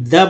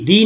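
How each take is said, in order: First: "द" with a short uh vowel; recommended pronunciation. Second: "दी" with a long ee vowel; rejected pronunciation. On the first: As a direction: say "द" as a short duh. ("द" छोटे अ के साथ बोलें) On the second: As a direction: show the unwanted "दी", ending in ee. ("दी" लंबी ई वाला उच्चारण) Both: Shown as a demonstration. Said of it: "दी नहीं, द बोलिए".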